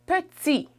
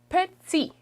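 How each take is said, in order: First: The T has a buzzing sound. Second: The T has a buzzing sound.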